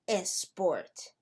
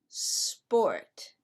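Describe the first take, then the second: First: An extra vowel sound comes before the s. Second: The word starts directly with the s sound. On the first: The speaker calls it wrong. "it's not a sport" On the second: The speaker calls it right. "It's sport"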